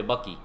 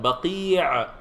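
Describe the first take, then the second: First: Baqi said like "bucky", no final ayn; non-Arabic pronunciation. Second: Baqi' with a long stretched ee and final ayn; Baqi' said the Arabic way, throaty ending; Arabic pronunciation. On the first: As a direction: say Baqi short and low, Anglicised. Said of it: "then you pronounce it like that". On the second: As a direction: draw out Baqi' carefully in Arabic. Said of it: "if you're not an Arabic speaker". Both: Shown as a demonstration.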